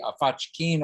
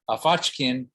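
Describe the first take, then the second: First: The word ends with a long E sound. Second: The word ends without a long E sound. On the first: The action was done happily. "when you put the long E on there, it's actually an adverb" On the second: The bear is happy. "that would be a happy bear"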